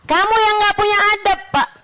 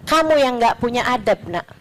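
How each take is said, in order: First: Higher, pushed comeback; heated retort, pitch up; raised retort. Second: Said in the usual way. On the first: Retold or imitated. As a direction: throw the words back at him, heated. Retort repeated, raised back.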